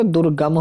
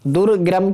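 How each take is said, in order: First: दुर्गम with plain g, dur-gam; corrected pronunciation. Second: दुर्ग्रम with an extra r, dur-gram; wrong pronunciation. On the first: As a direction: keep one r only in दुर्गम. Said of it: "ये दुर्गम होता है". (दुर्गम में सिर्फ़ 'ग' बोलें) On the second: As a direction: sound a second r in दुर्ग्रम. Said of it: "की जाए तो". (दुर्ग्रम में 'ग्र' बोलें) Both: Shown as a demonstration.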